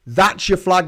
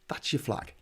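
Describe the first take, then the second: First: Said in the usual way. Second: Breathy whisper, much softer; whispered aside. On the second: Acted. Whispering the new flag idea to New Zealand, hushed. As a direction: say it under your breath like a secret.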